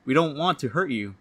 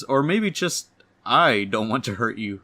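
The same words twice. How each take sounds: First: Said in the usual way. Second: I set apart and punched, the rest lighter; hesitate, then lean hard on the word I; stress on I. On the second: Acted. Corrects "we" to "I.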